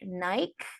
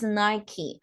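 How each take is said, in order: First: The final vowel is dropped, one syllable. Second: The final vowel is sounded, two syllables. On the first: The speaker calls it wrong. "many people pronounce it like Nike" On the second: The speaker calls it right. "but it's Nike"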